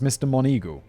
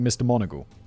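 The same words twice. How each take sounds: First: The name ends like the word eagle. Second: The name does not end like eagle. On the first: The speaker calls it wrong. "I thought this name was pronounced Mister Moneagle, as in the bird" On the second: The speaker calls it right. "It turns out it's more like Mister Moneagle"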